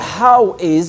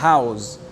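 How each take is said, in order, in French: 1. Deux mots distincts se prononcent en deux syllabes. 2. Les mots se fondent en une seule syllabe, comme 'house'. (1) "le « how is »" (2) "il va devenir « house »"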